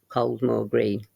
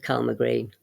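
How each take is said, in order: First: The name is said in a plain pronunciation. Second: The name is said in a local pronunciation.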